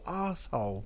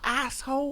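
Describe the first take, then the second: First: It is said in a British way. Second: It is said in an American way. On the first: "in England we'd say arsehole" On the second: "Do I say a- asshole"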